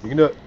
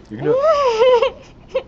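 First: Said in the usual way. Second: Much higher, slow, stretched cheering; high drawn-out cheer. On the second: Real, not acted. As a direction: sing it out high and long to egg her on. Cheering on friend before challenge.

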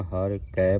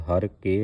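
First: ਹਰ ਕੈ with the open ai vowel on kai; correct reading. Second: ਹਰ ਕੇ with a plain e vowel on ke; the incorrect ਹਰ ਕੇ, ke with a closed e; wrong reading. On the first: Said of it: "ਹਰ ਕੈ ਪੜ੍ਹਨਾ". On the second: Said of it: "ਹਰ ਕੇ ਨਹੀਂ ਪੜ੍ਹਨਾ". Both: Shown as a demonstration.

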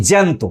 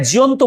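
First: জ্যান্ত said "jæn-to"; modern form. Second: জিয়ন্ত said "ji-yon-to"; Middle Bengali form. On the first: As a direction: merge the vowels into one "æ" in জ্যান্ত. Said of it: "আধুনিক বাংলায়". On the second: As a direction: keep "i-yo" as two vowels in জিয়ন্ত. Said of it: "মধ্য বাংলায়". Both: Shown as a demonstration.

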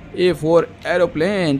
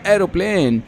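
First: A for aeroplane drawn out very slowly; slow teaching. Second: Said in the usual way. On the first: Shown as a demonstration. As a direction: spell it out slowly for small children. (बच्चों को सिखाते हुए बहुत धीरे)

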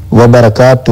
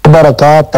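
First: وبرکاتہ said slowly, with a clear و before برکاتہ; correct pronunciation. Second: برکاتہ said slowly, without the opening و sound; wrong pronunciation. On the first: Cleric correcting the caller's salaam, slow and deliberate. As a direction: voice the و fully at the start of وبرکاتہ, slowly. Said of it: "وبرکاتہ ہوتا ہے". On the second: Cleric demonstrating the wrong form, slow and deliberate. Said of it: "برکاتہ نہیں ہوتا". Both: Shown as a demonstration.

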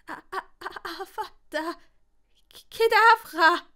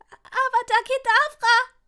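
First: High stuttered start bursting loud; stammering. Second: Very high, loud mouse-like shriek; squeaked spell. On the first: Longbottom failing the curse at the spider, stammering. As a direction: stammer the first syllable, then shriek the rest. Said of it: "stotterte der Gryffindor". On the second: Longbottom finally casting the killing curse, squeaking shrilly. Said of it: "Es klang zwar wie eine Maus". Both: A narrator's reading.

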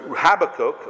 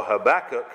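First: "Habakkuk" stressed on the first syllable; first pronunciation. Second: "Habakkuk" stressed on the second syllable; alternative pronunciation. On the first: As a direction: say "Habakkuk" as HAB-a-kuk. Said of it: "or Habakkuk". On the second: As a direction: say "Habakkuk" as huh-BACK-uk. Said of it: "it's Habakkuk". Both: Shown as a demonstration.

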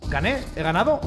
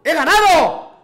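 First: Victoria dudosa en tono de pregunta; tanteo incrédulo. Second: Alarido triunfal, agudo y fuerte; grito de victoria. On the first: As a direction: pregunta sin alzar la voz, sin creértelo. Descubre incrédulo que ha ganado. (incrédulo, casi preguntando) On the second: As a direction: grita la victoria a pleno pulmón. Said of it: "Eso de los gritos". (grito eufórico real) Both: Real, not acted.

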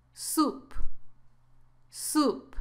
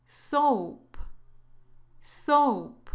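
First: "Soup" with a long oo vowel. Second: "Soap" with a gliding long o vowel. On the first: Teacher models the word for sopa, "Soup" with oo. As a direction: say "Soup" like "soop", closing on p. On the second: Teacher models the word for jabón, "Soap" with long o. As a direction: say "Soap" as "sohp", closing on p. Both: Shown as a demonstration. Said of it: "la pronunciación es así".

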